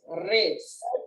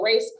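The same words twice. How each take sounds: First: The R is rolled with a trill. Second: The R is plain, not rolled. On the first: "you just rolling the R's" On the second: "like a race car"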